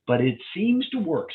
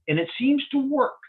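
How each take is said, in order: First: Seems pushed up a little higher; a lighter second stress on seems. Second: Seems lifted high and leaned on; cautious stress on seems. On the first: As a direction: lean again on seems, gently. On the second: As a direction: hit the word seems hard and high. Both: Shown as a demonstration. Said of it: "And I emphasize the word seems".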